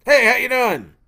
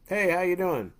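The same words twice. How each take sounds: First: Loud, high mocking echo of a greeting; louder emphatic mimicking. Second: Said in the usual way. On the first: Hunter copies a friend's greeting, loud exaggerated mimicry. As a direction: copy your friend's words back, much louder and higher. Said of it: "a little bit louder, a little bit more emphatic". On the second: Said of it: "Like, a friend of yours was like".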